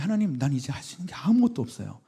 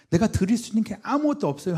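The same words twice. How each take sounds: First: Said in the usual way. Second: Crying out louder. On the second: Retold or imitated. Confessing helplessness to God.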